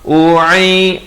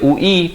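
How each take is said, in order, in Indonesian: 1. Konsonan tengahnya 'ain' tenggorokan yang dalam. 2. Konsonan tengahnya glottal stop biasa. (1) "di sini huruf ain" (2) "jangan baca ui. Kalau ui jadi hamzah"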